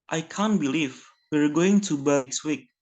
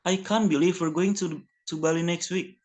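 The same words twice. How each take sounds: First: Said in the usual way. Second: A touch of excitement, slightly higher; mildly eager demo line about the trip; lightly excited teacher example. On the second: Shown as a demonstration. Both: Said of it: "Spoken quickly and with a higher pitch".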